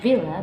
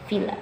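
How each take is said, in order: First: The first sound is a voiced v. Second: The first sound is voiceless. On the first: The speaker calls it right. "this pronunciation that should be villa" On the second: The speaker calls it wrong. "but students usually pronounce it villa"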